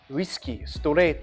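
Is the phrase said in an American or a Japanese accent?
Japanese. It is said in a Japanese accent.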